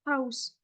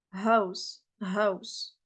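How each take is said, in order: First: "house" with a long rasped h; wrong Arabic-style house. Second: "house" with a light, breath-only h; English-style house. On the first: Teacher showing what English speakers avoid, rasped "house". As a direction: scrape the h of "house" in the throat. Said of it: "ils vont pas dire". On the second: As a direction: say "house" with an easy h, no rasp. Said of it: "Ils vont dire". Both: Shown as a demonstration.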